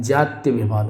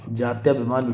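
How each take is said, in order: First: जात्याभिमान with short "tya", like "jatyabhiman"; correct form. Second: जात्याभिमान with long "tyaa"; wrong form. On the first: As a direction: shorten the second vowel of जात्याभिमान. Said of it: "ये सही होगा". (जात्याभिमान को "जात्यभिमान" बोलें) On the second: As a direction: say जात्याभिमान with a long second vowel. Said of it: "बिल्कुल गलत है". (जात्याभिमान में "त्या" लंबा बोलें) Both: Shown as a demonstration.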